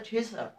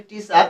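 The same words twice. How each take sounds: First: টিচার with a light breathy ঠ at the start; aspirated t. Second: টিচার with a plain unaspirated t. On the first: Teacher shows students the right sound, light ঠ. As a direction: say টিচার as ঠিচার, t softly aspirated. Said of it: "হালকা চাপে ওটারে ঠ উচ্চারণ করতে হবে". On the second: Teacher shows students the common way, plain t. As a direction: say টিচার with a flat Bengali t, no breath. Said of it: "উচ্চারণটা হবে টিচার". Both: Shown as a demonstration.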